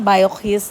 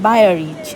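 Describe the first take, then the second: First: The name is said with a French pronunciation. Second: The name is said with an English pronunciation. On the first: "French উচ্চারণ আমি পারি না" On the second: "English উচ্চারণ হবে"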